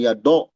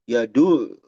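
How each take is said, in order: First: The vowel after d sounds like 'o'. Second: The vowel after d sounds like 'u'. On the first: The speaker calls it wrong. "jangan ya do do" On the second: The speaker calls it right. "tapi ya du ya du"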